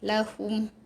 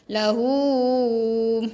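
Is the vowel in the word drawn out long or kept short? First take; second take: short; long. First: The vowel is kept short. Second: The vowel is drawn out long. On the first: The speaker calls it right. "tak mau panjang, pendek je" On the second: The speaker calls it wrong. "ada juga yang, yang baca lahum"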